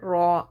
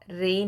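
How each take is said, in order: First: The r is heavy with a full, open vowel. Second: The r is light with a thin vowel. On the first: The speaker calls it right. "याद रहे रॉ रे नहीं" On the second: The speaker calls it wrong. "रे नहीं"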